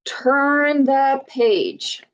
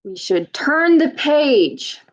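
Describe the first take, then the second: First: A slow, teacherly turn the page; slow, drawn out. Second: Said in the usual way. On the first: Shown as a demonstration. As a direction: turn the page stretched out slowly. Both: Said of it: "What should we do to find out".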